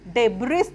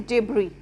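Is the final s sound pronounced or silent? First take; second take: pronounced; silent. First: An s sound is pronounced at the end. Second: The word ends without any s sound. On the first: The speaker calls it wrong. "तो इसको हम डेब्रिस नहीं पढ़ेंगे" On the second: The speaker calls it right. "तो इसको हम पढ़ेंगे डेब्री"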